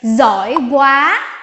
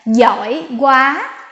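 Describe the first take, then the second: First: It is said without a southern accent. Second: It is said with a southern accent.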